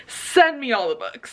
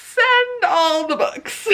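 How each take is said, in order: First: Said in the usual way. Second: High, greatly drawn-out mock plea; excited demand. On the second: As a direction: stretch SEND and ALL, high and eager. Eager reply repeated, drawn out.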